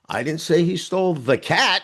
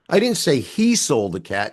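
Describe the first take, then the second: First: The stress falls on the word cat. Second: The stress falls on the word he. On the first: A different animal was taken. "He stole the dog" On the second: A different person took the cat. "She did"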